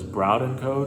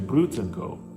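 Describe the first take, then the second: First: The name is pronounced the way it is spelled. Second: The name is pronounced the local way. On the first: The speaker calls it wrong. "the way it's spelled, that's the way I would say it" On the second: The speaker calls it right. "it's actually Brutenko. So, yeah, that's how you say it"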